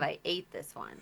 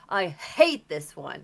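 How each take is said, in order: First: The second word starts directly with a vowel. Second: The second word starts with a strong h sound. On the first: The speaker calls it right. "instead of I ate this one" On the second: The speaker calls it wrong. "you were like overemphasizing the you're like I hate this one"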